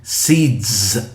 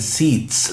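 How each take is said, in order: First: The word ends with a voiced z sound. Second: The word ends with a voiceless s sound. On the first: The speaker calls it right. "I'm saying seeds, z, voiced as well" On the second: The speaker calls it wrong. "I'm not saying seeds, no"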